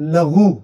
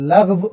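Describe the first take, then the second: First: The word ends with an 'oo' vowel. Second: The word ends with a 'v' sound. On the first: The speaker calls it wrong. "बाज़ लोग लग़व को बोलते हैं लग़ू" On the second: The speaker calls it right. "लघु नहीं होता, लग़व होता है"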